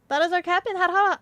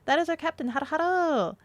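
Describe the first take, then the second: First: It is said very fast. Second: It is said more slowly.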